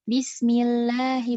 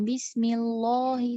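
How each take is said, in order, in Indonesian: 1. Vokal a panjang terdengar tipis dan ringan. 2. Vokal a panjang terdengar tebal dan berat. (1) "huruf alif ini akan menipis kalau misalnya didahului oleh huruf yang tipis"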